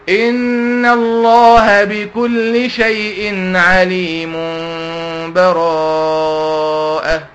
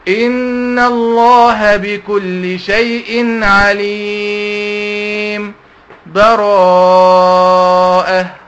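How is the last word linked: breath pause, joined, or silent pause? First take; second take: joined; silent pause. First: The last word follows directly with no pause. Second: A brief stop before the last word, no breath. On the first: "وصلتهم ببعض عادي خالص" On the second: "أنا وقفت وما خدتش نفس"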